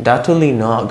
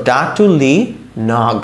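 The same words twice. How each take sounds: First: Said in the usual way. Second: ডাটুলি, a pause, then নগ on its own; broken-up demo. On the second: Shown as a demonstration. Teacher swapping P for G, broken-up demo. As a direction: split off the final NOG. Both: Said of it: "এরকম হয়ে যেত".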